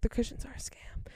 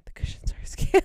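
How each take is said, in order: First: Imitating mom's hushed warning; whispered aside. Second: Imitating mom's insistent stage whisper. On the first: Mom warning daughter in the shoe store, whispered aside. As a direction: whisper it under your breath. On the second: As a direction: whisper it hard enough to be overheard. Mom repeats her aside, louder.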